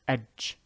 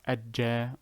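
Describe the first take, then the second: First: It ends on a single j without a vowel. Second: A doubled j is followed by a vowel. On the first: The speaker calls it right. "Do not add a second J" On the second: The speaker calls it wrong. "It's not ajja"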